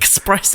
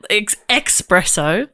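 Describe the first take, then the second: First: The word begins with an 'es' sound. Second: The word begins with an 'ex' sound. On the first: The speaker calls it right. "Max Espresso" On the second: The speaker calls it wrong. "not ex- espresso ... how people mispronounce espresso"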